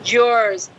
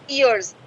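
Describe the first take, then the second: First: The vowel sounds like the vowel in 'yours'. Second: The vowel sounds like the vowel in 'ears'. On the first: This is how the singer says it. "ये बोल रही है yours" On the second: This is how we usually say it. "अब हम ईयर्स बोलते हैं"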